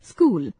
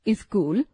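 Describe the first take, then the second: First: It has the standard Hindi pronunciation. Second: It has a regionally influenced, nonstandard pronunciation. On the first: The speaker calls it right. "शुद्ध उच्चारण" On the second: The speaker calls it wrong. "अशुद्ध उच्चारण"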